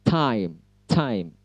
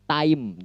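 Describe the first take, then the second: First: "time" with a hissing puff on the T; aspirated English T. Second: "time" with a flat Indonesian T, no puff; dry-T "time"; unaspirated T. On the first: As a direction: push a burst of air into "time". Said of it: "tetapi time". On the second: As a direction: say "time" with no air burst on T. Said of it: "Bukan time". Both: Shown as a demonstration.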